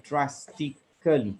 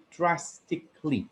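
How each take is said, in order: First: DRASTICALLY with an extra vowel, "cal-lee" ending; mistaken pronunciation. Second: DRASTICALLY with the ending run together as "klee"; correct pronunciation. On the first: Grammarian quoting a speaker's error, over-full drastically. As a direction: say drastically in four beats, dras-ti-cal-ly. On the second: Grammarian correcting a speaker's word, careful demonstration of drastically. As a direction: say drastically in three beats, dras-tic-ly. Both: Shown as a demonstration. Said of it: "instead of drastically".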